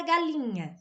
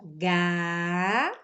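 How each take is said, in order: First: Said in the usual way. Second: "galinha" very slowly as ga... li... nha; long pauses between the syllables of "galinha", as for dictation. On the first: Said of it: "A palavra galinha". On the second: Shown as a demonstration. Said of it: "nós fizemos a divisão silábica".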